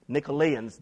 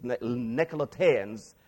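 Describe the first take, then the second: First: Nicolaitans said as "nik-uh-LAY-unz", with no t sound; alternative pronunciation. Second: Nicolaitans said slowly as "nek-uh-luh-TAY-unz", with a stressed t syllable; alternative pronunciation. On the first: Preacher offering one way to pronounce the name, Nicolaitans as "nik-uh-LAY-unz". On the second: Preacher offering another way to pronounce the name, Nicolaitans as "nek-uh-luh-TAY-unz". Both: Shown as a demonstration. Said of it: "pronounce this differently".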